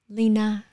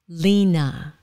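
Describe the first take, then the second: First: Vietnamese accent with Vietnamese-style tones. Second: English accent, stress on the first syllable. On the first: "người Việt Nam thì" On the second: "in English"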